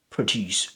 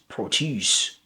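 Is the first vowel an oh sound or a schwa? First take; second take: schwa; oh. First: The first vowel is a weak schwa. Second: The first vowel is a full oh sound. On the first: It is the verb. "That with the schwa sound, uh, uh, is a weak form" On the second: It is the noun. "the second one is produce, produce, with the oh sound"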